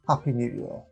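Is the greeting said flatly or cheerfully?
flatly. It is said flatly, without much cheer.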